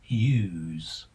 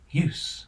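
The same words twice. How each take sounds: First: The word ends with a z sound. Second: The word ends with an s sound. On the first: It is used as a verb. "It rhymes with Y E W S when a verb" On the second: It is used as a noun. "This rhymes with loose when a noun"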